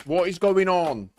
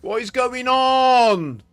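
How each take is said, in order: First: Exasperated. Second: Slow, drawn-out angry yell, much higher and louder; furious shout. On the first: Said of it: "I'm getting really, really pissed off". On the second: Gamer shouting at a broken game lobby, furious shout. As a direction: bellow it out in real frustration. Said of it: "I'm getting pissed off". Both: Real, not acted.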